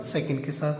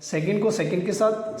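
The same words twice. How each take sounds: First: Softer, lower repeat; soft echo. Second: Said in the usual way. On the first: Shown as a demonstration. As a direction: echo second के साथ quietly.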